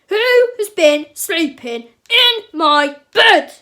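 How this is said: It is said in a big, grumpy voice. "cried Papa Bear in his big grumpy voice"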